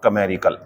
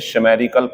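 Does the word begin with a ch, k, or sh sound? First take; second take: k; sh. First: The word begins with a k sound. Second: The word begins with a sh sound. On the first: The speaker calls it right. "ये होता है बच्चों कमेरिकल" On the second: The speaker calls it wrong. "ये दोनों गलत है"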